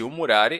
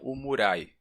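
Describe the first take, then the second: First: The r in the last syllable is pronounced. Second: The r in the last syllable is dropped.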